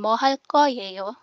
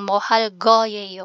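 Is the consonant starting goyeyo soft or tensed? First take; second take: tensed; soft. First: The consonant starting goyeyo is a tensed k. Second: The consonant starting goyeyo is a soft g. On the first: "Magiging matigas yung sound niya" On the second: "yung mohal goyeyo"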